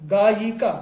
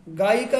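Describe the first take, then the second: First: गायिका with a clear y, "gaa-yi-ka"; गायिका said properly, y between the vowels; correct pronunciation. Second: गायिका said as "gaika", no y sound; गायिका run together as "gaa-ika"; wrong pronunciation. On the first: Teacher giving students the correct गायिका, "gaa-yi-ka". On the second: Teacher showing students the wrong गायिका, "gaika". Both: Shown as a demonstration. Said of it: "गायिका नहीं".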